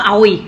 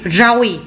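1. Từ này bắt đầu trực tiếp bằng nguyên âm. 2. Từ này bắt đầu bằng âm r. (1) "Không có ồi" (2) "Đúng rồi"

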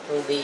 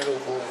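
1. Âm tiết cuối kết thúc bằng nguyên âm 'ee'. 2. Âm tiết cuối kết thúc bằng nguyên âm 'oo'. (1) "Ruby chứ không phải" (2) "không phải rubu"

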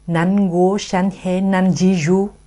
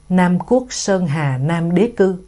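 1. Câu này được đọc theo giọng Quan Thoại. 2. Câu này được đọc theo giọng Việt. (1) "Người Hoa Bắc Kinh họ đọc là" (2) "người Việt Nam đọc là"

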